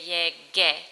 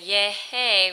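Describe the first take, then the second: First: The consonant before the final vowel is a hard g. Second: The consonant before the final vowel sounds like h. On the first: The speaker calls it right. "we want to say yege" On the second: The speaker calls it wrong. "Instead of saying yehe"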